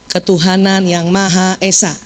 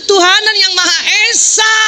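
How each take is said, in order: First: It is said softly and gently. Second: It is said loudly at a high, shrill pitch. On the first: The husband is pleased with his wife. The speaker calls it right. "Ibu lembut kan?" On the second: The husband quietly leaves to avoid being scolded. The speaker calls it wrong. "dengan tujuh oktav"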